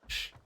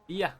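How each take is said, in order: First: The sound is a hushing 'sh'. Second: The sound is a gliding 'y'. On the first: This is the Buenos Aires way of saying it. "in Argentina they pronounce the double L in, in Porteño um, Spanish. It's sh" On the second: This is the standard Spanish way of saying it. "and then in normal Spanish it's yeah"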